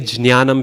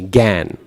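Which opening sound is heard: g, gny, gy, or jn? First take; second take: jn; g. First: It begins with a j sound followed by n. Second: It begins with a plain g, no y or nasal. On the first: This is an old pronunciation no longer in use. "if you say jnanam, people will look at you really funny" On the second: This is how Bengali speakers say it. "It's just the g, gan"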